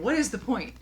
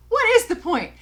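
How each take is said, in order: First: Said in the usual way. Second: Loud, high-pitched exasperation; much higher and louder, demanding an answer; exasperated outburst. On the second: Real, not acted. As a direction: throw the question out in a raised, exasperated cry. Exasperated repeat of the question.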